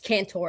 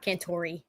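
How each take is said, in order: First: The name ends on the r sound. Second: The name ends with an added ee sound. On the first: The speaker calls it right. "this is Cantor" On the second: The speaker calls it wrong. "It's not Cantori"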